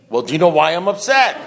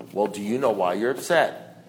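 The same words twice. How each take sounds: First: Exasperated retold question, voice lifted; acted, pushed-into-it asking; forced question. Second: Low, soft, understated sponsor voice; imitating a sponsor's quiet probing; sponsor's question. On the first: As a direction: give in and ask it, pointedly. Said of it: "so he forced me". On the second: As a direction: ask quietly, down low, unruffled. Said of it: "that's what my sponsor said to me".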